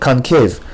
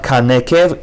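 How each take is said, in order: First: The n is followed by no vowel. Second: A short vowel follows the n sound. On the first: The speaker calls it right. "Schwa on the nun is silent" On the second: The speaker calls it wrong. "not concave"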